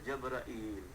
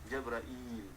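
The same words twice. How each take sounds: No difference in how they are said.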